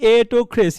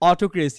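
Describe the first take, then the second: First: The first vowel sounds like 'e'. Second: The first vowel sounds like 'o'. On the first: The speaker calls it right. "আপনার পড়া উচিত কি এটোক্রেসি" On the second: The speaker calls it wrong. "আপনি পড়তেছেন নোয়াখালীদের মতো অটোক্রেসি"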